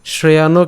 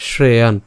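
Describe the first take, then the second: First: শ্রেয়ানও ending in an open "o" after the n; wrong-way শ্রেয়ানও, "shreyano"; added final vowel. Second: শ্রেয়ান closing firmly on the n; silent final vowel. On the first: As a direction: say শ্রেয়ানও with a vowel tacked on at the end. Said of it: "কিন্তু উচ্চারণ করিনি". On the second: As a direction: say শ্রেয়ান as "shre-yaan", no vowel after the n. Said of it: "যার কারণে উচ্চারণটা কেমন করলাম". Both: Shown as a demonstration.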